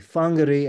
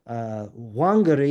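First: The name begins with an F sound. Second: The name begins with a W sound.

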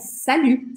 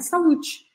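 First: The word ends without any t sound. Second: The word ends with an audible t sound. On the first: The speaker calls it right. "é salut" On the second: The speaker calls it wrong. "não é para falar o T, não é salute"

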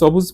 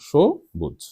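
First: The word begins with a plain 's' sound. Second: The word begins with an 'sh' sound. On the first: The speaker calls it wrong. "কিন্তু আমি কি সবুজ বলি? বলি না" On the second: The speaker calls it right. "শো ওকার, স না"

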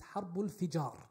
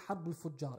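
First: The vowel after F sounds like i. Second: The vowel after F sounds like u. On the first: The speaker calls it right. "It is Harbul Fijar" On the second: The speaker calls it wrong. "I mispronounced it last week. I said Harbul Fujar"

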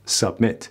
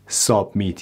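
First: The first vowel is a weak schwa. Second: The first vowel is a full, strong vowel. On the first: The speaker calls it right. "میگیم" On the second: The speaker calls it wrong. "نمیگیم submit submit ... اینا غلطه. اینا تلفظ در واقع فارسیه"

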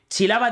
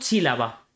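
First: The stress is on the second syllable. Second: The stress is on the first syllable. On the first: This is the usual way of saying the word. "en vez de decir" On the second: The stress is moved so the word rhymes with sílaba. "Estoy haciendo una diástole"

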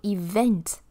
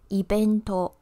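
First: It is said with an English v sound. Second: It is said with a Japanese b sound. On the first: "event is evento" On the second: "the V will become B sound"

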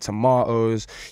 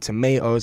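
First: It is said with a British accent. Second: It is said with an American accent.

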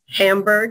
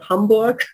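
First: Hamburg is said with an American accent. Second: Hamburg is said with a German accent.

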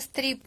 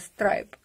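First: The vowel sounds like 'ee'. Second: The vowel sounds like 'eye'. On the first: The speaker calls it wrong. "сказала Стріп і сама себе вже потім поправила" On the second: The speaker calls it right. "поправила"

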